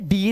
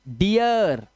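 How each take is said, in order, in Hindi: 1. स्वर एक सादी लंबी ee ध्वनि है। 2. स्वर ee से uh की ओर फिसलता है। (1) "अब इसे डीर नहीं पढ़ोगे" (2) "ईया की आवाज आई"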